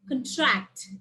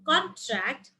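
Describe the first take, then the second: First: The stress is on the second syllable. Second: The stress is on the first syllable. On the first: It is used as a verb. "and here it's contract" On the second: It is used as a noun. "in nouns it's contract"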